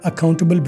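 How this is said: It is said with a British accent, t pronounced. "British में कहेंगे"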